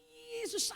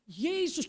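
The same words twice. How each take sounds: First: Higher, softer, strained imitation of pain; laboured, pained utterance. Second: Said in the usual way. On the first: Patient guided to say the name despite pain, laboured mock groan. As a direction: struggle to get the name out, mimicking pain. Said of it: "dengan berat dia ngomong". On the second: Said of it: "menuntun dia untuk berkata".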